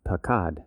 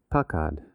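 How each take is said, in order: First: Pakad, said slowly with the stress placed on one syllable; slow, deliberate pakad as a teaching example; stress demo. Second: Pakad, drawn out slowly with the stress moved to the other syllable; slow contrasting take of pakad; stress demo, shifted. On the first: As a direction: say pakad slowly, marking its accent. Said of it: "emphasize the first syllable of a word or the last syllable". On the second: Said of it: "accent the beginning of the word or the end". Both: Shown as a demonstration.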